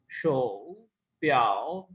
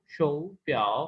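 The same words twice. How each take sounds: First: शो प्याओ with both syllables in full third tone; wrong tone demo. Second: शो प्याओ with शो lifted to a rising second tone; corrected tone sandhi. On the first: Teacher showing the wrong reading to students, plainly marked as wrong. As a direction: say शो प्याओ with the dip kept on शो. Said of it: "नहीं पढ़ी जाएगी". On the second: Teacher giving students the corrected tone sandhi. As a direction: let शो rise, then dip on प्याओ. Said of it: "वो शो प्याओ". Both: Shown as a demonstration.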